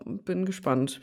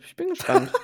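First: Said in the usual way. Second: Much higher, playful repeat; sing-song it up high; higher pitch. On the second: Real, not acted. Repeats phrase, second high. (hoch und verspielt)

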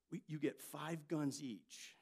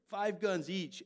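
First: Said in the usual way. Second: Louder punch on guns; emphatic repeat. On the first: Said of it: "he's like". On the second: Retold or imitated. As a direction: hammer home Five guns each. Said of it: "repeating the boast".

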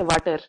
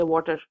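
First: "water" said as "vatter"; mispronounced water. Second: "water" said as "WAW-ter"; correct water. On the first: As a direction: say "water" with a V and a flat A, "VAH-ter". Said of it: "we don't say water". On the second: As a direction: say "water" with a rounded W and an AW vowel. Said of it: "we say water". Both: Shown as a demonstration.

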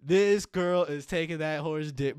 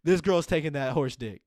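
First: Louder, slow, each word punched; louder slow emphatic repeat. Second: Louder blunt punchline. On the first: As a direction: spell it out word by word. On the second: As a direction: land it loudly for laughs. Punchline about BoJack. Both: Real, not acted.

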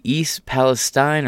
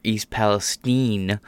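First: "Palestine" with a long i at the end; last syllable like stine. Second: "Palestine" ending to rhyme with "seen", drawn out slowly; last syllable like steen. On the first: Host gives viewers one option, "Palestine" ending in STINE. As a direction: say "Palestine" ending to rhyme with "fine". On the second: Host gives viewers the other option, "Palestine" ending in STEEN. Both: Shown as a demonstration. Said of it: "Epstein versus Epstein pronunciations there".

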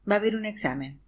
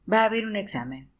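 The two takes are said the same way.

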